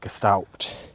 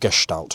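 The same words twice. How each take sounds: First: The word has a casual, anglicized pronunciation. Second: The word has a careful, German-style pronunciation. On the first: The speaker calls it wrong. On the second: The speaker calls it right.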